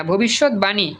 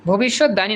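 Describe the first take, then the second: First: ভবিষ্যৎবাণী as bhobishot-bani; correct pronunciation. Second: ভবিষ্যৎবাণী said as bhobishot-dani; wrong pronunciation. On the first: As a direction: sound the b in ভবিষ্যৎবাণী. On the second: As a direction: put d for b in ভবিষ্যৎবাণী. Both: Shown as a demonstration. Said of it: "ভবিষ্যৎবাণী না".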